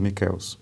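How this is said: The name is said with Italian pronunciation. "na Itália seu nome seria pronunciado"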